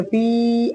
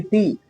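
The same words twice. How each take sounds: First: "पी" held out long; wrongly stretched vowel. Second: "पी" said short and quick; quick short vowel. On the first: Teacher showing students the mistake, long held "पी". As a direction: drag the vowel of "पी". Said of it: "ऐसे नहीं पढ़ेंगे". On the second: Teacher correcting the reading, brief quick "पी". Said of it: "जल्दी पी". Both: Shown as a demonstration.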